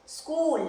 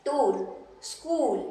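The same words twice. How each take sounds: First: "स्कूल" said briskly with the long oo; long oo vowel. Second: "टूल, स्कूल" with a slow, drawn-out long oo; long oo vowel. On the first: Teacher repeating the word for students. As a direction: say "स्कूल" like school, oo held. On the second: Teacher drawing out the long oo for students. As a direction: stretch the oo in "स्कूल" like school. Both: Shown as a demonstration. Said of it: "बड़े ऊ का जो symbol".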